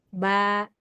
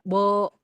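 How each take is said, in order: First: The vowel is thin and ends like a. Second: The vowel is thick and ends like o. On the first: The speaker calls it right. "ketika difathahkan dia ujungnya a" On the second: The speaker calls it wrong. "Tidak bo, to, enggak begitu"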